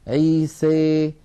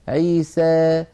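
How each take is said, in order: First: The final vowel leans strongly toward 'ee'. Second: The final vowel leans slightly toward 'ee'. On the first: "يبالغ في هذا الأمر فيخلط صوت الألف بصوت الياء أكثر" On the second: "يخلطون هذا الصوت بشيء من الياء"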